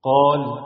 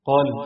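First: The long vowel is held for two counts. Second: The long vowel is cut short. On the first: The speaker calls it right. "نفس الكلمات بعد تطبيق المد الطبيعي" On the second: The speaker calls it wrong. "هقرأ 3 كلمات فيهم مد طبيعي بس من غير ما مد"

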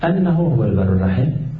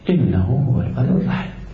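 First: The first word begins with an 'a' vowel. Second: The first word begins with an 'i' vowel. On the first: The clause gives a reason tied to the verb. "يجوز فيها فتح همزين" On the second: The clause starts a new explanatory statement. "ويجوز فيها الكسر"

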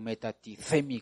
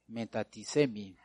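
First: The consonant before -emi is a z sound. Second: The consonant before -emi is an s sound.

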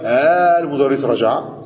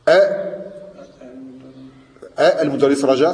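First: The two glottal stops merge into one long vowel. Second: Two separate glottal stops are pronounced in a row. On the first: The speaker calls it right. "c'est pareil. Comme les deux hamza" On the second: The speaker calls it wrong. "ça ne se dit pas comme ça"

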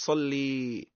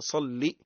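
First: It ends in a long ee vowel. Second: It ends in a short i vowel. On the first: The speaker calls it wrong. "طولش فيها، متقولش صلي" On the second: The speaker calls it right. "لام مشددة وعليها كسرة"

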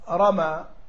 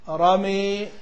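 First: The final vowel is an open a sound. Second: The final vowel leans toward an e sound. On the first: "الآن هذا إيه فتح" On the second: "أقول الإمالة"

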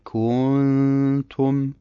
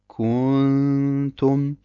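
First: The vowel after k is drawn out long. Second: The vowel after k is drawn out long.

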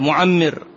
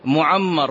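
First: The vowel after the doubled m is 'i'. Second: The vowel after the doubled m is 'a'. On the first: He attained the lifespan written for him. "قد يأتي على الفاعلية معمر" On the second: God lengthened his life. "على المفعولية"

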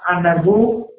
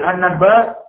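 First: The word ends with a 'u' vowel. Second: The word ends with an 'a' vowel. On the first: The speaker calls it right. "Yang benar adalah anad bu" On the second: The speaker calls it wrong. "Anda bilang anad ba"

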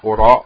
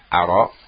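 First: The word begins with a 'u' vowel. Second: The word begins with an 'a' vowel. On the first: I do not think. "kalau didomahkan" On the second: I do not know. "Difathahkan hamzahnya"

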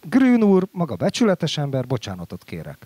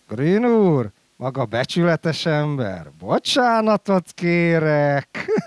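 First: It is said as a plain, sincere apology. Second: It is said with an ironic, questioning tone. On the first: The man is called honest and the apology is real. "mit kell mondanom?" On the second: The man's honesty is doubted and the apology is mocking. "sok minden van a hangsúlyon"

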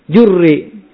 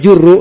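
First: The word ends with an added i vowel. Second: The word ends with an added u vowel. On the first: "Lebih enak lah daripada jur" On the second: "dibamah boleh juru"

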